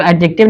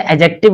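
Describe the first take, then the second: First: एडजेक्टिव said with a clear d before the j; the everyday way, d pronounced; adjective with the d sounded. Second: एडजेक्टिव said with the d dropped, a-jective; adjective, silent d. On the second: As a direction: drop the d in एडजेक्टिव so it glides straight into j. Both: Shown as a demonstration. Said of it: "डी silent होता है".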